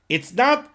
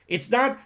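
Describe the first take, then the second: The two takes are said the same way.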